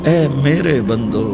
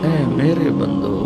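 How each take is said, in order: No difference in how they are said.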